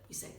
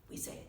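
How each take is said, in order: Both takes have the same delivery.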